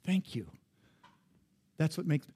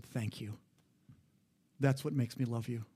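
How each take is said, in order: First: Said in the usual way. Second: Softly, much softer, a gentle grateful murmur; wife's tender thanks. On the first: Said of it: "She goes". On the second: Retold or imitated. Husband retells wife thanking him in the car, soft and tender. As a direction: hush it like a quiet thank-you from the passenger seat. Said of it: "she just looked at me and said".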